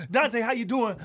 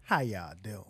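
First: High, louder crowd greeting; imitating hype comic. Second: Very low, soft near-whisper; imitating laid-back Ali. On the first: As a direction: greet a guest like an overeager stage comic. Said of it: "everybody come on stage and be like". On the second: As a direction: greet the crowd with barely any effort. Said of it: "Ali sits down and be like".

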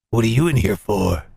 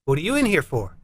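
First: Very low, menacing question; deep, intimidating inmate; hardened killer. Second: Casual, lower question to a cellmate; lightly voiced inmate; inmate asking. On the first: Acted. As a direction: ask back in a deep convict voice. Killer asks the cellmate back. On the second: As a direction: ask as one prisoner to another. Prison chat, first inmate asks.

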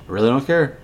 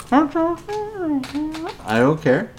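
First: Said in the usual way. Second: High, very slow sing-song I don't care; mocking don't care. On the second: Real, not acted. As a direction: stretch it out high to mock him. Mocking Steven's complaint.

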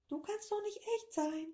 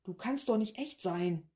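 First: Much higher, softer squeaky echo; high creature echo. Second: Said in the usual way. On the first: Acted. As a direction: parrot it back in a tiny creature voice. Creature echoes the professor.

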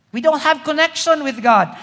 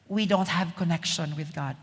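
First: Louder, higher, driving the point home; emphatic repeat. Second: Said in the usual way. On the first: Real, not acted. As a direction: preach it out with force. Preacher repeats line for emphasis.

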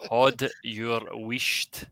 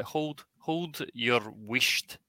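First: Very slow "Hod", the L dropped; Scots phrase demo. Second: "hold" said separately, then the phrase slowly; clarifying first word. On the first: Repeating it for a puzzled guesser, very slow Scots demo. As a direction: draw out "Hod your wisht" word by word. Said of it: "if you were saying this to someone". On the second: Answering who missed the first word, slow clarifying demo. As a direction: spell out "hold" by ear, dragging each word. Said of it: "I don't understand the first word". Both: Shown as a demonstration.

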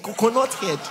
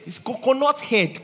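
First: Coconut punched again; stress on coconut. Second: Coconut punched high; stress on coconut. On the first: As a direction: hit coconut, shorter. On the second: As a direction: hit the word coconut. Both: Shown as a demonstration.

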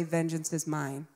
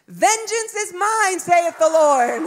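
First: Said in the usual way. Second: Put-on high, slow child reciting scripture; little girl's voice. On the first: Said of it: "both say". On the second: Daughter giving mom a scripture, solemn little-girl voice. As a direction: declaim it in a small child's high voice. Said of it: "with her little voice, she goes".

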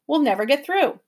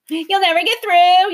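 First: Said in the usual way. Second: Higher, louder jeering repeat; mocking echo. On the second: A narrator's reading. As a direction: throw the words back mockingly. Creature mocks professor.

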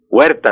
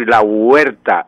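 First: Said in the usual way. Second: "la huerta" with the u held apart, u-ER-ta; diphthong split into hiatus. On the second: Shown as a demonstration. Professor shows the wrong huerta, broken u-er-ta. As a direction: stretch the u of "huerta" into its own syllable. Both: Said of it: "no puedo decir la huerta".

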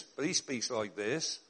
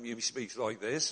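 First: Slow, low put-on preacher voice; imitating quaint speech again. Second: Slow, low mock preacher voice; lightly put-on old man; imitating quaint speech. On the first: Contrasting how he talked with Birmingham, slow and low. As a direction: lean into the odd old-fashioned lilt. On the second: Mocking the odd manner in Birmingham, slow and low.

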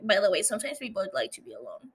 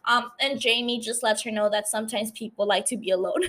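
First: Quick, casual throwaway tone; offhand aside. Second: Said in the usual way. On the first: Retold or imitated. Jamie brushing Danny off, a quick offhand aside. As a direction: toss it off fast like a passing remark. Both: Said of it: "But she says it in, kinda like".

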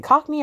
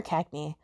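First: "Cockney" said with an open "kock" first syllable; "Cockney" with an ah-like o, not the a of "cat". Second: "Cackney" said with "cack" as first syllable; "Cackney" with a short a, not an o. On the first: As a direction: say "Cockney" to start like "cock". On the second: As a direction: say "Cackney" with the a of "cat". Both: Shown as a demonstration. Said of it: "is it Cockney or Cackney".

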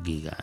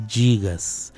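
First: GIGA as quiet "guiga"; hard g, soft volume on GIGA; giga con g dura. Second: Slow GIGAS said "jigas"; soft j opening on GIGAS; gigas con g suave. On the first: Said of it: "en griego". (giga dicho "guiga", bajito) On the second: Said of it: "no es gigas". (gigas dicho "yigas") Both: Shown as a demonstration.

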